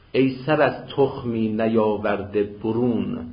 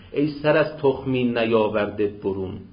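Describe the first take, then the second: Both takes have the same delivery.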